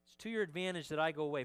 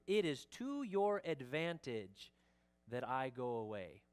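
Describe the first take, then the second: First: Said in the usual way. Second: Slow, measured weight on "It is to your advantage"; emphatic statement. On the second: Acted. Pastor quotes Jesus' key statement to disciples, slow and emphatic. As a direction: stretch "your advantage", pause, then settle on "I go away". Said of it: "He's emphasizing this next statement".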